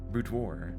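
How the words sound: It is said with an American pronunciation. "that's how we say it in American English"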